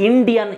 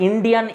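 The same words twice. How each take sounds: Both takes have the same delivery.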